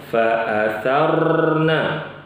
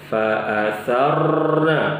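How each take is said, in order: No difference in how they are said.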